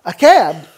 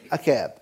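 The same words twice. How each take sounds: First: Incredulous echo. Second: Lower, softer falling statement; deadpan confirmation. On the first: Storyteller repeating his cab decision for laughs, mock incredulous. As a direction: throw it back as a loud question. Acts out disbelief at cab ride. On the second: Storyteller confirming the cab decision for laughs, deadpan. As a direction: drop it down as a settled answer. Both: Acted.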